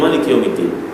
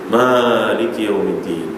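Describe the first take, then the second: First: The first vowel of maliki is short. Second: The first vowel of maliki is long. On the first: "Nabi membaca bighairi alif" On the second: "mereka baca dengan alif"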